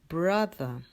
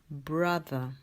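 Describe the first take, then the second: The two takes are said the same way.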